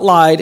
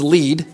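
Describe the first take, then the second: First: The vowel sounds like 'eye'. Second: The vowel sounds like 'ee'. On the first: The speaker calls it wrong. "It's not lied" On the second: The speaker calls it right. "it's lead"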